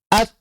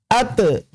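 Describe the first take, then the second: First: The final t is released with only breath. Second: The final t is followed by a vowel. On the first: The speaker calls it right. "maka tidak menghasilkan suara" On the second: The speaker calls it wrong. "tidak diucapkan ake, ate"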